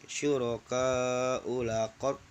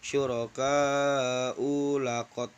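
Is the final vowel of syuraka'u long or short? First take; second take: short; long. First: The final vowel of syuraka'u is short. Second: The final vowel of syuraka'u is long. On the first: The speaker calls it right. "itu dibaca pendek" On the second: The speaker calls it wrong. "Enggak boleh dibaca"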